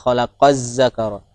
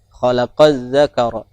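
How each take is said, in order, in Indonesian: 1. Kata zakara dimulai dengan bunyi 'z' yang berdengung. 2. Kata zakara dimulai dengan bunyi 'dh' yang lembut. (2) "harusnya dibaca huruf zal"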